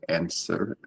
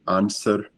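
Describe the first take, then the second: First: It is said with an American accent. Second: It is said with a British accent. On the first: "in the U S we say answer" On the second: "maybe that's the British spellings, uh, British pronunciation"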